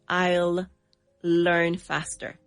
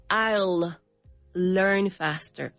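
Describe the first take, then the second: First: 'I will' is shortened to one syllable. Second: The same.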